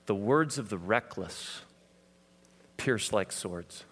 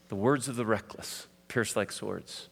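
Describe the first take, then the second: First: "The words of the reckless pierce like swords" drawn out slowly, with a long pause before "pierce like swords"; scripture read slowly and gravely; slow solemn reading. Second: Said in the usual way. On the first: Shown as a demonstration. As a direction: intone the proverb word by word. First reading of proverb.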